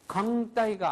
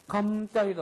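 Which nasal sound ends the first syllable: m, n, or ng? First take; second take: ng; m. First: The first syllable ends in an ng sound. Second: The first syllable ends in an m sound. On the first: "강따이가 아니고" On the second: "감따이도 아니고"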